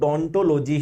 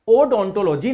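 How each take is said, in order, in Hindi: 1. शब्द सीधे 'd' ध्वनि से शुरू होता है। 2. शब्द 'o' स्वर ध्वनि से शुरू होता है। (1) "तो डोंटोलॉजी ही बोलते हैं" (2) "ओडोंटोलॉजी नहीं बोलते"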